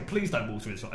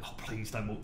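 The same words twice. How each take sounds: First: Said in the usual way. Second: Softer plea. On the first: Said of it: "So in the end, I say". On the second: Retold or imitated. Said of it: "And I'm like".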